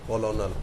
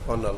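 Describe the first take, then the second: First: It is said as three syllables, ko-lo-nel. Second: It is said as two syllables, ker-nel. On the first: This is how the spelling reads. "कर्नल की spelling होती है सी O L O N E L" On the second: This is how the word is actually spoken. "इसको बोलेंगे क्या"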